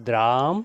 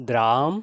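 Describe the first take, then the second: No difference in how they are said.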